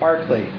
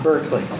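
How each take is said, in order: First: The first syllable sounds like bark. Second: The first syllable sounds like burk. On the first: This is the philosopher's name. The speaker calls it right. "like bark like a dog" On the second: This is the California university's name. The speaker calls it wrong. "not Berkeley. Berkeley is the name of the university in California"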